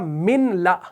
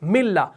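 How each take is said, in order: First: The n is pronounced separately before the l. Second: The n merges fully into a doubled l. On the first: The speaker calls it wrong. "हमने नहीं पढ़ा मिनला" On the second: The speaker calls it right. "तो हमने यहां पर क्या पढ़ा? मिल्ला।"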